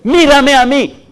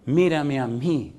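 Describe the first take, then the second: First: High, loud, slow call of mírame. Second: Quiet, slow mírame, almost intimate; soft call. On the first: Pastor voicing God's call loudly. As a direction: cry out mírame, stretching each word. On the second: Pastor voicing God's call softly to the church. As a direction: let God's call fall gently. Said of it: "dice Dios". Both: Retold or imitated.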